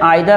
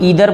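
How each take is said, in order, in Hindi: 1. पहला स्वर 'eye' जैसा सुनाई देता है। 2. पहला स्वर 'ee' जैसा सुनाई देता है। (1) "लेकिन मैं आइदर और नाइदर बोलता हूँ" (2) "इसको लोग ईदर बोलते हैं"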